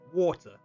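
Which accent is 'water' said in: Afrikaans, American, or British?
British. It is said in a British accent. "British people like how would they say it like water"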